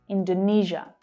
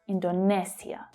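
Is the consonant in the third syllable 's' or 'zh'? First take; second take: zh; s. First: The third syllable has a zh sound. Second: The third syllable has an s sound. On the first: This is the usual English pronunciation. "that's the zh consonant sound, like in vision" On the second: This is how speakers from that country say it. "Indonesians will probably pronounce that as Indonesia"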